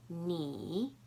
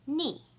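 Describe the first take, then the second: First: The pitch dips low, then rises. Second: The pitch falls sharply from high.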